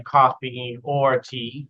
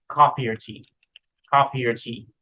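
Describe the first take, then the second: First: Slow, "or" fully pronounced and rising; "coffee or tea" with every word separate and clear; full "or". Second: "coffee or tea" with "or" reduced to er; "or" squeezed to a quick er between "coffee" and "tea"; weak "or". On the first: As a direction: give "or" its full strong vowel. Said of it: "we wouldn't say". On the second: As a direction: run "coffee or tea" together. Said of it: "We'd say". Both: Shown as a demonstration.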